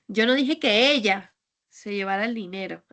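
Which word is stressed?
ella. The word 'ella' carries the main stress. A different person took it. "es que igual fue otra persona"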